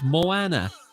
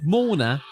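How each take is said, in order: First: The name is said with three syllables. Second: The name is said with two syllables. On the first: The speaker calls it right. "I said Moana" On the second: The speaker calls it wrong. "You said Mona"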